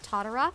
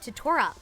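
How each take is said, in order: First: The middle consonant is a soft d sound. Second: The middle consonant is a crisp t sound. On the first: The speaker calls it wrong. "a lot of people say like Todorok, and I'm pretty sure that's incorrect" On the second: The speaker calls it right. "I'm pretty sure it's Totorok"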